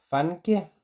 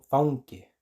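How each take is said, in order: First: Fanke said with a plain a; teacher gives the wrong learner take. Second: Faunke said with au before nk; teacher gives the correct take; Icelandic au. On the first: Plain a vowel. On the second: Au before nk. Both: Shown as a demonstration. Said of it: "gente lo diga como faunke".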